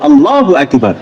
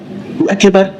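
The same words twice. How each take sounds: First: The vowels are held only their natural length. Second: The vowels are stretched out very long. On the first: The speaker calls it right. "Tobi'i itu" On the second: The speaker calls it wrong. "itu mat sikkatul hadid. Apa itu? Mat rel sepur. Panjang"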